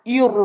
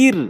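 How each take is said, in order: First: ইউর said rounded and thick; wrong heavy ir. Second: ইর said light, lips spread wide; correct thin ir. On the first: Teacher showing the wrong heavy form. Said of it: "এরকম পুর নয়". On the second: Teacher showing the right thin ইর. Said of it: "ইর এরকম". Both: Shown as a demonstration.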